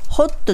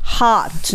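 First: It is said with Japanese-style katakana syllables. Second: It is said with an English pronunciation. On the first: The speaker calls it wrong. "ホットじゃなくて" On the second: The speaker calls it right. "hot になりますね"

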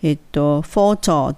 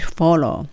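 First: The middle consonant is a clear t. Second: The middle consonant sounds like an l. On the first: The speaker calls it wrong. "フォトっていう風に言って、t はチッチッって言うんですけれども、ここでは言わずに" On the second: The speaker calls it right. "砕けてブロークになってL の音になるの方が近いです"

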